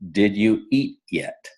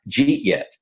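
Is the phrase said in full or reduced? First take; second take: full; reduced. First: Each word is said separately and clearly. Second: The words are run together into two syllables. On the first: "Jeet yet means" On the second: "we have a lot of mispronounced words and phrases. One of those is jeet yet"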